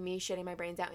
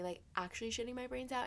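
First: Said in the usual way. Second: "actually" lifted higher than the rest; stress on actually. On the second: Shown as a demonstration. Explaining the difference to listeners, "actually" raised for emphasis. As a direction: lean on "actually" to mark the real thing. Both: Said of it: "there's a difference between".

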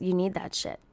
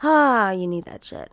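First: Quiet. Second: "you need that shit" said louder, with a sighing "Ah". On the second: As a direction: open with a sighing "Ah", then say it louder. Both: Shown as a demonstration.

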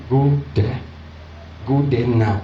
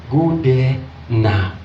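First: Said in the usual way. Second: Slow, drawn-out order; retold insistent push. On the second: Inner prompting pushes the preacher to go, slow insistence. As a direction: stretch the words out insistently. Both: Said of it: "The thing was just pushing".

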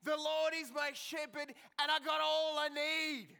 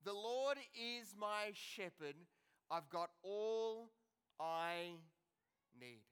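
First: Put-on loud, high, excited little girl shouting; gleeful kid's shout; excited child yelling. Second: Quiet, slow, letting each word sink in; tender slow recitation; slow, soft reflection. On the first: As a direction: shout it out like an eager four-year-old. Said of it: "started yelling very, very excitedly". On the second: Shown as a demonstration. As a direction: savour every word, gently. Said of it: "let those words sink into our lives".

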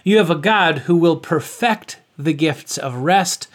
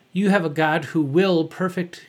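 First: Perfect said as the verb, per-FECT, stress on the second syllable; corrected stress. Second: Perfect said as the adjective, PER-fect, stress on the first syllable; misread stress. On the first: Preacher correcting his misread, perfect stressed on second syllable. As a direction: land firmly on the FECT of "perfect". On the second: Preacher misreading his script, perfect stressed on first syllable. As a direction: stumble into "perfect" like the word for flawless. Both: Shown as a demonstration. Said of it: "put the emphasis on the right syllable".

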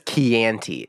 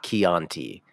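First: "Chianti" with a short flat a, kee-ANN-tee; mispronounced Chianti. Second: "Chianti" with an open ah, kee-AHN-tee; Italian-style Chianti. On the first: Retold or imitated. Griping to the co-host about Hannibal's way, "Chianti" as kee-ANN-tee. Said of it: "because he says Chianti". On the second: Shown as a demonstration. Correcting Hannibal for the co-host, "Chianti" as kee-AHN-tee. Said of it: "not Chianti".

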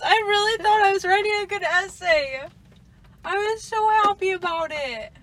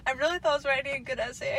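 First: Overdramatic, higher and louder; dramatic. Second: Said in the usual way. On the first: Shown as a demonstration. Rereading her own text to her friend, hammed-up dramatic. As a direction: ham up the despair of a ruined essay. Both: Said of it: "I sound so dramatic".

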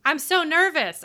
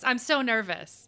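First: High, loud nervous exclaim; nervous squeal. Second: Said in the usual way. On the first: Real, not acted. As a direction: blurt out real jitters, pitched up.

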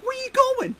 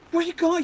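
First: "Where you going?" squeaked much higher; stronger mimic of Baker. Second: "Where you going?" a bit higher and brighter in pitch; first take of the mimic, raised but held back; mimicking Baker. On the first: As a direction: push the impression further up. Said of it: "trying to mimic his". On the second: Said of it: "he goes".

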